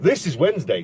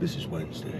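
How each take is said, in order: First: It is said plainly, without a stylish ending. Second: It is said with a cool, stylish ending. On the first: The speaker calls it wrong. "you can't say like, this is Wednesday. That doesn't sound right" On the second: The speaker calls it right. "It's got to be like a cool ending to it. Like"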